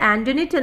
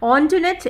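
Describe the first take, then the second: First: It starts with 'an' and sounds like 'Antonite'. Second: It starts with 'on' and sounds like 'Ontwanet'. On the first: This is how most people read the written name. The speaker calls it wrong. "ഈ പേര് കണ്ടു കഴിഞ്ഞാൽ ആന്റണിറ്റ് എന്നാണ് നമ്മളൊക്കെ വായിക്കുക" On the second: This is how the name is really pronounced. The speaker calls it right. "ഓൺട്വനെറ്റ് എന്നാണ് കറക്റ്റ് ആയിട്ടുള്ള പ്രൊനൗൺസിയേഷൻ"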